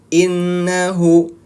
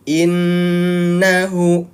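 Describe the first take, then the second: First: The doubled n lasts only one beat. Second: The doubled n is held for two beats. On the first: The speaker calls it wrong. "Kalau ditekan, dia hanya satu ketukan saja" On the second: The speaker calls it right. "Ditahan itu dua ketukan"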